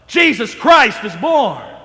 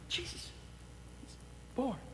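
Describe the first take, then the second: First: It is proclaimed loudly, like a shout. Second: It is said in a quiet whisper.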